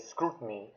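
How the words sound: The word is said in an American accent. "in the states... you guys tend to prefer, you know, to say scrutiny"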